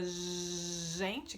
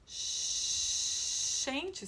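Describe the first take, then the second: First: The first consonant is voiced, with throat buzz. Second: The first consonant is voiceless, without throat buzz. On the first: The speaker calls it right. "que tem motorzinho" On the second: The speaker calls it wrong. "sem o motorzinho"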